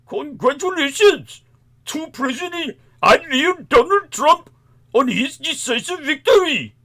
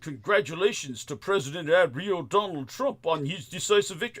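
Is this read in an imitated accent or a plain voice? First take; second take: imitated accent; plain voice. First: It is read in an imitated foreign accent. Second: It is read in the speaker's plain voice. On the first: "Let me read this tweet the way he would say it" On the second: "you know I'm not saying that right"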